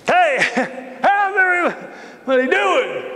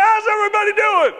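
First: Laughing. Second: Much higher, fast shouted greeting; eager shout. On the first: Repeats greeting to silent room. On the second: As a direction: yell hello to the whole room. Newcomer greets the crowd loudly. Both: Acted.

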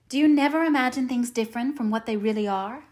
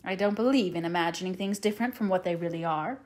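First: Put-on higher-pitched, astonished child's question; wondering little girl; wide-eyed wonder. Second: Matter-of-fact dismissal, no wonder in it; sober, no-nonsense retort. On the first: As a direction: ask in innocent disbelief. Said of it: "asked Anne wide-eyed". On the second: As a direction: answer back firmly at an even pitch. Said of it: "retorted Marilla". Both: A narrator's reading.

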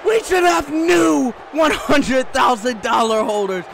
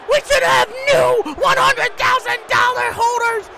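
First: Insistent complaint in a normal register; firm protest. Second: High-pitched frantic protest; screamed outrage. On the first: Commentator repeats his complaint about the title holders, firmly. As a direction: state the grievance forcefully without screaming. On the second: Commentator outraged at a missed pinfall, screaming high. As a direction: scream it in disbelief. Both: Real, not acted.

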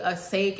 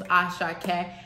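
First: "Asake" anglicized like a-SAKE, two syllables; common mispronunciation. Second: "Asake" said the Yoruba way, a-SHA-ke, with a clear final e; correct Yoruba pronunciation. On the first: Retold or imitated. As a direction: say "Asake" the wrong English way, dropping the last vowel. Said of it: "people calling him [name]". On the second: Shown as a demonstration. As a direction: pronounce "Asake" as the singer's name should sound, three full syllables. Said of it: "I've heard all over people calling him [name]".

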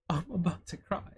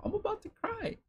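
First: Said in the usual way. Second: Squeaky high mock whimper, half-joking; mock crying. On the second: Gushing over the accessories, a squeaky mock whimper. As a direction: pretend to be on the verge of tears, pitched way up. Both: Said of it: "No, I'm just fucking excited".

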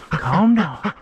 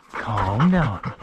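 First: High, gentle hush for the dog; soothing pet voice. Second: Plain, firmer order to the dog; firm command. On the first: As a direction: coax the dog to settle. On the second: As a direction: tell the dog to settle, no nonsense. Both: Real, not acted.

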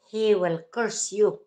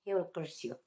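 First: Said in the usual way. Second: Quiet. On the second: Real, not acted. Repeated warning, dropped.

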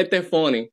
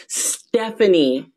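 First: Estefani as eh-teh-FAH-nee, stress on FA; deliberate mispronunciation. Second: Stephanie slowly as STEF-uh-nee, starting on S; correct pronunciation. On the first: Acted. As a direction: say Estefani with an extra E in front and an open A. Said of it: "someone to mispronounce your name". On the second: Shown as a demonstration. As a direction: model Stephanie with stress on the first syllable. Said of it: "it's pronounced Stephanie".

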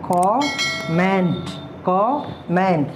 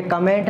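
First: कमेंट drawn out very slowly as "kom-ment", open o; correct pronunciation, very slow. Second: कमेंट said as "ka-ment", weak first vowel; wrong pronunciation. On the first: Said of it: "ये कमेंट होता है". (बहुत धीरे सही उच्चारण कमेंट, "कॉ-मेंट") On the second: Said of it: "ये कमेंट नहीं". (गलत उच्चारण कमेंट, "क-मेंट") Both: Shown as a demonstration.

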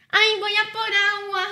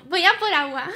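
First: Playful higher-pitched impression; teasing, raised mimicking voice; Andy. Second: Said in the usual way. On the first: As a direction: mimic someone announcing a water run in a put-on higher voice. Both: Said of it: "¿Cómo, cómo es, Andy?".

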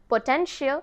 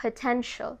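First: Potential said as "po-ten-shi-al", four syllables; wrong pronunciation. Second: Potential with the ending said as "shul", three syllables; correct pronunciation. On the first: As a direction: split the ending of potential into "shi-al". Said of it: "but it's wrong". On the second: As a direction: end potential on a short "shul", not "shi-al". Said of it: "The right pronunciation is". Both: Shown as a demonstration.

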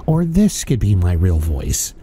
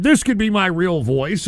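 First: Much lower, slow, different timbre; deep gag voice to show it might be his real one; deep put-on voice. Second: Said in the usual way. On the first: Shown as a demonstration. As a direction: drop into a deep alternate persona. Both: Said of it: "don't say that's my real voice".

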